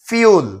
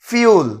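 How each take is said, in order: The two takes are said the same way.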